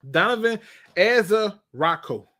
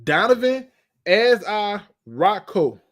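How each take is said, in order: First: Said in the usual way. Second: "Donovan Azarocco" slowed, every syllable drawn; careful name. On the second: Real, not acted. Fan carefully working out "Donovan Azarocco", slow. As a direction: sound out "Donovan Azarocco" slowly. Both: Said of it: "That sounds like some type of bacterial infection".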